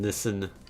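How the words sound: Nissan is said with a British pronunciation. "If you're in the U K, it's pronounced Nissan. Listen"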